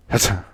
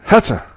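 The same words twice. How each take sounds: First: A small muffled sneeze. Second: Loud, high, full sneeze. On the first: A man sneezes in a bar, small muffled sneeze. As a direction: hold the sneeze back. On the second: The sneeze bursts out full, loud and high. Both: Acted. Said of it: "Did you just sneeze?".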